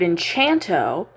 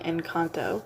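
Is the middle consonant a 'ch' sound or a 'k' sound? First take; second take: ch; k. First: The middle consonant is a ch sound. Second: The middle consonant is a hard k sound. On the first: The speaker calls it wrong. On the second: The speaker calls it right.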